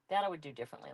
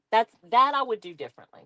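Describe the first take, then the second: First: Much softer, muttered to herself; quiet repeat. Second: Said in the usual way. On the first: Real, not acted. Crafter musing to herself about her journal, softly muttered. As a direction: echo the words under your breath.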